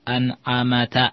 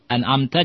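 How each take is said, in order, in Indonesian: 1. Ada vokal antara m dan t. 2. Tidak ada vokal antara m dan t. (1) "Ini juga salah" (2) "mengharokati yang sukun"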